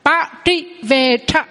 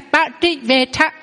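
First: Slow ba trị về tha, each syllable apart; slow model reading. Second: Ba trị về tha, trị curled and rising; model pronunciation. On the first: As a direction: read ba trị về tha slowly for students. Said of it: "À, là ha". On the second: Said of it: "giống như trơ với trị ha". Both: Shown as a demonstration.

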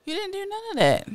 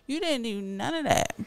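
First: Much higher, fast, shrieking repeat; outraged squeal. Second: Said in the usual way. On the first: Pretend. Scolding the partner again, much higher and faster. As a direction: shoot way up in outrage. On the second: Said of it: "repeated take".

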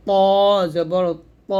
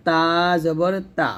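First: ত জবর ত with a heavy, full-mouthed t and rounded o; thick heavy to. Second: তা জবর তা with a light dental t, open a; thin light ta. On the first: Teacher contrasting two letters, thick emphatic t. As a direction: make ত thick and dark, held. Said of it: "মোটা করে". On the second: Teacher contrasting two letters, thin ta. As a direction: keep তা thin, tongue tip at upper teeth. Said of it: "তাটা আমরা পাতলা করে উচ্চারণ করব". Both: Shown as a demonstration.

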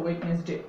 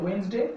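First: Wednesday as "WED-nes-day", d sounded; three-syllable Wednesday with every part voiced; mispronunciation. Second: Wednesday as "WENS-day", d silent; two-syllable Wednesday without the d; correct pronunciation. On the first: Teacher naming the wrong pronunciation, mispronunciation. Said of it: "ভুল উচ্চারণ হলো". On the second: Teacher contrasting the correct pronunciation for learners, correct pronunciation. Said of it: "সঠিক উচ্চারণ হলো". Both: Shown as a demonstration.

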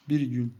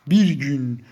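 First: Said in the usual way. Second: Loud, forceful delivery; emphatic repeat. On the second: Real, not acted. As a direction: hit it hard, much louder. Emphatic repeat of the same words. (yüksek sesle, vurgulu)

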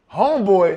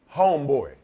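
First: High, loud mock disbelief; retold astonished outburst; incredulous. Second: Said in the usual way. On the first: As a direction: throw the name back, appalled. Partner balks at the new name. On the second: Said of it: "And he said".

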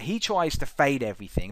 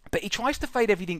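First: Said in the usual way. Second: Higher and faster, pressing on fade; emphatic repeat. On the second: Shown as a demonstration. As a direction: repeat it with more push.

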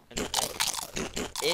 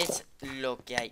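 First: Drawn-out taunt. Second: Said in the usual way. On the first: Acted.

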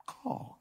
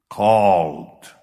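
First: Called breathed as a soft whisper; Called, whispered right after the shout; whispered echo. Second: Loud booming single word Called; Called, shouted loud to the church; proclaimed. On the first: Preacher's echo of the word. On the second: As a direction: hurl the word Called out at the congregation. Preacher's one-word proclamation. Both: Acted.

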